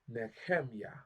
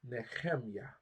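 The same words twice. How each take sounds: First: The middle h is a rough throaty sound. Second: The same.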